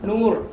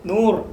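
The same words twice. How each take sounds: First: The word ends abruptly on the r sound. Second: The word ends abruptly on the r sound.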